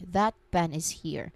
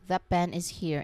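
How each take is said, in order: First: A clear T ends 'that' before 'pen'. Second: The T of 'that' becomes a P sound. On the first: "if you pronounce it slowly, you make a very clear T sound at the very end of the word" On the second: "the T sound at the end of that changes its shape and actually becomes a P sound"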